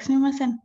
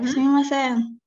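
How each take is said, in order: First: The word is said short and rapid. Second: The word is drawn out and longer. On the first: It is used to say sorry. "it would be more rapid to say" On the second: It is used to say excuse me. "would be a little bit longer"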